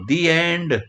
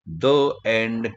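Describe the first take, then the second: First: The word 'the' is said with a long 'ee' vowel. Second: The word 'the' is said with a short 'uh' vowel. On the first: The speaker calls it right. "द हा दी उच्चाराचा असतो" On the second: The speaker calls it wrong. "कधीही म्हणायचं नसतं"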